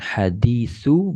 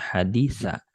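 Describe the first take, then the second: First: The word ends in the vowel u. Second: The word ends in the vowel a. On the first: "bukan hadisu" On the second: "bukan hadisa"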